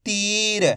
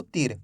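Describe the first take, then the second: First: "तीर" with a long stretched ee; drawn-out vowel. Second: "तीर" cut short with a quick i; short vowel. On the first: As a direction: hold the ee in "तीर" before the r. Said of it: "खींच के पढ़ेंगे". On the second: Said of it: "ऐसे नहीं पढ़ना आपको". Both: Shown as a demonstration.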